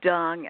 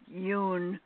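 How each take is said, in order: First: The name is said with an anglicized pronunciation. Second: The name is said with its Vietnamese pronunciation. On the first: The speaker calls it wrong. "you said dung" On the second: The speaker calls it right. "it's pronounced yoon as far as the Vietnamese pronunciation goes"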